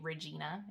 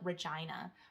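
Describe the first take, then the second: First: The middle syllable has an 'ee' sound. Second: The middle syllable has an 'eye' sound. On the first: This is how the name is meant to be said. The speaker calls it right. "it sounds normal" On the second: This makes the name rhyme with a rude word. The speaker calls it wrong. "everyone would pronounce it wrong. They would call it Regina"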